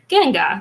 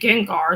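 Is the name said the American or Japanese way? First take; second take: Japanese; American. First: It is said with Japanese pronunciation. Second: It is said with American English pronunciation. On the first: "That's how, how you say that in Japanese" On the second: "We say Gengar"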